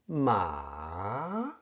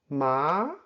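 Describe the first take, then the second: First: The pitch first falls and then rises. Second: The pitch starts mid and rises. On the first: "The falling rising tone, also called the third tone, ma, first falls and then rises" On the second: "The middle rising tone starts from the middle of your voice and rises"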